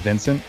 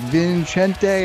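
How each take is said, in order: First: The name ends on the t with no final vowel. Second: The name ends with an added final vowel sound. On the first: The speaker calls it right. "It's very simple. It's just Vincent. That E is there for show" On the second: The speaker calls it wrong. "they're like Vincente"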